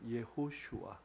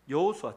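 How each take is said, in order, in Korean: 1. 세 번째 음절은 'sh' 소리를 씁니다. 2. 세 번째 음절은 평범한 's' 소리를 씁니다.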